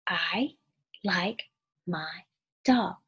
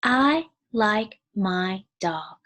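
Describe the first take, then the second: First: Each word set apart by a pause; I, like, my, dog with a gap after each. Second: Each word drawn out slowly; slow, clear classroom reading; slow read-aloud. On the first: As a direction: count out the words one by one. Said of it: "Four words". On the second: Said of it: "here's a sentence". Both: Shown as a demonstration.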